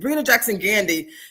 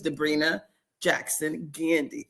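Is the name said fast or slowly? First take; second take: fast; slowly. First: The name is said quickly. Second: The name is said slowly. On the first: "I say it really fast sometimes" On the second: "let me say her name a little slower"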